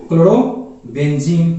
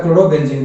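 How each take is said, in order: First: chlorobenzene stretched slowly syllable by syllable; teacher drawing out chlorobenzene so students follow; slow, drawn out. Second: Said in the usual way. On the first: Shown as a demonstration. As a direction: spell out chlorobenzene slowly for the class. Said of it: "क्या हो जाएगा बाबू?". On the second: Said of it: "क्या हो जाएगा?".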